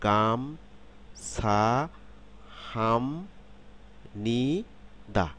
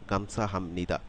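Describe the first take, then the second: First: Very slow "গাম-ছা-হাম-নি-দা", each syllable stretched; slow teaching breakdown of "গাম-ছা-হাম-নি-দা", with m in "হাম". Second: "গামছা হামনিদা" joined smoothly at an everyday pace; connected "গামছা হামনিদা", m straight into n; syllables run together. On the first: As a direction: draw out every syllable of "গাম-ছা-হাম-নি-দা" with a pause after it. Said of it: "খেয়াল করুন". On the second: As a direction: say "গামছা হামনিদা" in one go, no breaks. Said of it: "একসাথে উচ্চারণ করব". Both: Shown as a demonstration.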